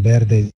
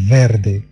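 First: The word starts with a light B sound. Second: The word starts with a V sound. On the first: The speaker calls it right. "ولكن بيردي خفيفة" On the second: The speaker calls it wrong. "ليس فيردي"

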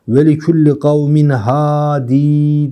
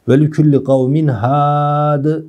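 First: The last word ends with a long ee. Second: The last word ends without a vowel. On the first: "Vakf halinde de ya'yı getirmiş" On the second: "Doğrusu bu. Efsah olan bu"

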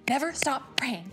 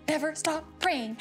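Both takes have the same delivery.

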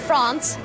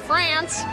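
First: It is said with a French-style pronunciation. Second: It is said with an American pronunciation.

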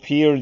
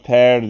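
First: The vowel sounds like the one in 'ear'. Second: The vowel sounds like the one in 'air'. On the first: The speaker calls it wrong. "bu pear diye okunmuyor" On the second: The speaker calls it right. "pear diye okunuyor"

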